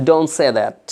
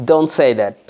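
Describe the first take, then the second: No difference in how they are said.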